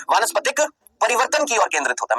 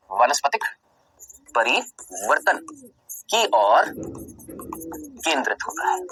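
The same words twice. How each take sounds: First: Said in the usual way. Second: Slow dictation. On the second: Shown as a demonstration. Teacher dictating the missing word for notes, very slowly. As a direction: dictate the line word by word with pauses. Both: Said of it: "मैंने यहाँ पर ये word लिखना भूल गया".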